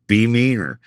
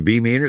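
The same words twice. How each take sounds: First: Falling tune on "meaner", as an order; firm instruction. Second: Rising tune on "meaner", as a question; incredulous echo question. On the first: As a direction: urge "be meaner" as a direction, pitch falling. Cast directing him to be meaner. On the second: He echoes the order, questioning it. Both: Retold or imitated.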